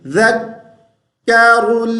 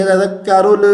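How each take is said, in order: First: ज़क्करुल slow, halting on "dhak" before "karull"; stop on k. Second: ज़क्करुल ending "rol-uh", l bounced; wrong qalqala. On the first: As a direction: hold a silent stop inside ज़क्करुल. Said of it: "तो रुक जाएंगे". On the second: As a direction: show faulty ज़क्करुल with an echo after l. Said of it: "कलकला नहीं करेंगे". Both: Shown as a demonstration.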